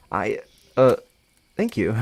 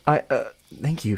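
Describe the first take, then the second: First: Hesitant, with filler pauses; unsure, halting thanks. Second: Hesitant thanks in your own voice; hesitate, then thank them simply; unsure, regular voice. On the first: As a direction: stumble into a thank-you. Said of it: "not knowing how to go about this". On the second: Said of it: "I'm just gonna use regular voice". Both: Acted.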